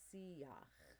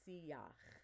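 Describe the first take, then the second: First: A clear 'ya' sound is in the middle. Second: A clear 'ya' sound is in the middle.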